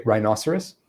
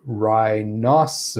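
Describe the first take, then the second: First: "rhinoceros" run together in one quick go; said quickly. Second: "rhinoceros" stretched syllable by syllable; really slow enunciation. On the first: Teacher illustrating word speed, quick "rhinoceros". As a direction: say "rhinoceros" briskly, syllables joined. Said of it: "I can say it that quickly". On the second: Teacher illustrating word speed, slowly enunciated "rhinoceros". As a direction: draw out each syllable of "rhinoceros" separately. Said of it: "enunciate each syllable really slowly". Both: Shown as a demonstration.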